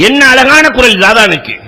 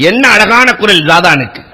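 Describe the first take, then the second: First: "அழகான" lifted higher and held, as it rings in his ear; echoing remark. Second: A casual aside while walking by; offhand passing remark. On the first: The singer hears the elder's praise, echoing and stressed. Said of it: "ஜாதான் காதுல விழுகுது". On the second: Elder remarks casually while passing by, offhand. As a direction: toss "என்ன அழகான குரல்" off lightly in passing. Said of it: "போற போக்கிலே சொன்னார்கள்". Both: Retold or imitated.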